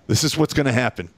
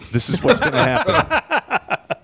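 First: Said in the usual way. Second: This is what's gonna happen pitched way up and cracking into laughter; laughing mock colonel. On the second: Teller laughing while quoting the colonel threatening Edwards. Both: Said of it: "He goes".

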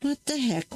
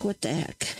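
First: "What the heck?" pitched high, punch on "What"; a sudden high exclaim of surprise; startled high "What the heck?"; surprised. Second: A low baffled aside to herself; muttered repeat. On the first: Surprised at a bad stamp. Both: Real, not acted.

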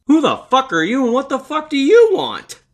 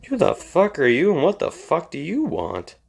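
First: Much higher and louder, a mock shouted demand; overacted startled homeowner yelling at an intruder; hammed-up yell. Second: A touch of annoyed demand, mostly in his own voice; half-hearted imitation of a startled homeowner; mild mock demand. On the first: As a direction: yell it at the stranger in your driveway. Third replay, car in driveway. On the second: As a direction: quote it lightly irritated. Replaying the movie line again.

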